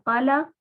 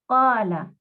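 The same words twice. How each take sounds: First: The first vowel is short. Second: The first vowel is stretched long. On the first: The speaker calls it wrong. "En vez de qala" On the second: The speaker calls it right. "Esa fatha la estamos estirando"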